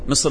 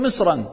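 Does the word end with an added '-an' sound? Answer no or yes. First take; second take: no; yes. First: The word ends without an added an sound. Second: The word ends with an added an sound. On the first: It names one specific, known country. "فيقال مصر إذا أردت البلد المعين" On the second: It means any city at all. "إذا أردت أي بلد قل مصرا"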